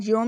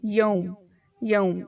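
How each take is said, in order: First: یوم said as plain yom; the wrong way, flat o. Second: یوم with an au as in south; right yaum. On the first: Teacher showing the wrong یوم. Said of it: "یوم نہیں پڑھیں گے". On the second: Teacher showing the correct یوم. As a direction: glide the vowel in یوم. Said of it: "اس طرح کہیے جیسے ... ساؤتھ اور ماؤتھ". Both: Shown as a demonstration.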